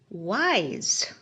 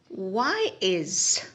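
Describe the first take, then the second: First: It is said quickly. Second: It is said slowly.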